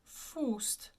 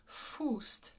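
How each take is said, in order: First: The vowel is said with rounded lips. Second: The same.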